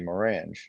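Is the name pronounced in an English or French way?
English. The name is pronounced with English sounds. "or you could say"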